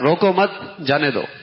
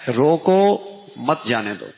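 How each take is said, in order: First: The pause comes right after 'mat'. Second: The pause comes right after 'roko'.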